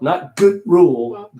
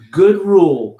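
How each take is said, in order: First: An extra vowel sound follows the D. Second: The D is held and runs into rule. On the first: The speaker calls it wrong. "Not gooda" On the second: The speaker calls it right. "Hold that D"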